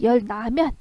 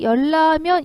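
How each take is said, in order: First: The second syllable begins with an n sound. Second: The second syllable begins with an l sound. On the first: The speaker calls it wrong. "이렇게 일어나지 않고" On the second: The speaker calls it right. "이렇게 되는 거잖아요"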